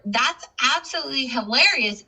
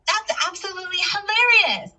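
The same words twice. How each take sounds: First: Pitched up, HILARIOUS stressed; emphatic exclamation. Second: High-pitched emphatic exclamation; louder exclamation. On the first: Teacher quoting the exclamation example, emphatic. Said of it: "is said more with louder intonation". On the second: Teacher demonstrating an exclamation mark, louder and emphatic. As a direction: exclaim it big, voice soaring on HILARIOUS. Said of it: "said more with louder intonation". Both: Shown as a demonstration.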